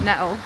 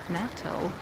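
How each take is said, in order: First: The middle T is dropped, not clearly sounded. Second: The middle T is clearly and fully sounded. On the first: "which is very Leicester" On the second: "trying to say the T's in the middle of words"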